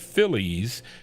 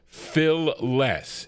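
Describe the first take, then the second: First: The second syllable sounds like 'lees'. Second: The second syllable sounds like 'less'. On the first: The speaker calls it wrong. "not Phillies" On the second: The speaker calls it right. "is how you pronounce it"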